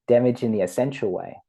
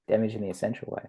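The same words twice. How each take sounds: First: Said in the usual way. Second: Much softer repeat of "Damage in the essential way"; soft afterthought echo of "Damage in the essential way"; quiet echo. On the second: Shown as a demonstration. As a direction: let the words "Damage in the essential way" fall away, softly.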